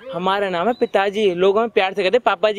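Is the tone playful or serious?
serious. It is said in a slightly serious tone.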